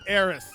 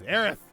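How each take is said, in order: First: The name ends with an s sound. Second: The name ends with a th sound. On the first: The speaker calls it wrong. "not S" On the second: The speaker calls it right. "T H"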